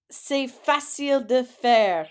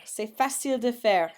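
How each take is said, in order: First: "C'est facile de faire" slow and louder; slow model phrase. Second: Said in the usual way. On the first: Shown as a demonstration. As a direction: read it slowly for the class. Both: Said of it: "So take a guess".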